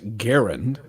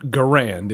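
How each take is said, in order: First: The name is said the inventor's own way. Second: The name is said the usual American way. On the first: The speaker calls it right. "it's Garand, uh, because the guy is a Canadian" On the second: The speaker calls it wrong. "as we call it, it's not Garand"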